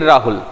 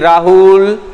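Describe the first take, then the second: First: The name is said plainly with a short u. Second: The name is called with a long-held u. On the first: The name is simply said. "जब हम राहुल बोलेंगे तो ऐसे बोलेंगे" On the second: Someone far away is being called. "कोई दूर खड़ा हुआ है तो उसको बोलेंगे"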